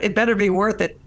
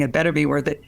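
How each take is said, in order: First: "It better be worth it" asked with a raised, questioning lift, pitch higher; puzzled question. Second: Said in the usual way. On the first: Shown as a demonstration. Quoting his grumble back, puzzled and asking. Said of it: "so what do you mean?". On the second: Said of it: "that's what it's saying".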